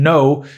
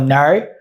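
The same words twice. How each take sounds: First: It is said with a standard vowel. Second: It is said with an Australian vowel. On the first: "instead of saying no" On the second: "they go like"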